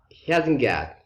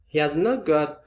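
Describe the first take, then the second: First: Has and not are joined into one word. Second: All four words are said in full. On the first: "becomes uh, he hasn't got" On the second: "He has not got again becomes"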